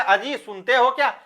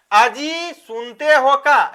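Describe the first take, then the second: First: Said in the usual way. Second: Slow, drawn-out call to a husband; पत्नी की पुकार. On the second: Shown as a demonstration. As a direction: stretch it out like a wife calling. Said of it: "ऐसा बोलते हैं". (खींचकर पति को पुकारना)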